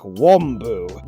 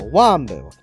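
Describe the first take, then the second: First: The first vowel is an exaggeratedly deep ah. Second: The first vowel is a moderate, middle sound. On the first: The speaker calls it wrong. "Some people go way too deep on the ah sound" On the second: The speaker calls it right. "You gotta go kind of in the middle"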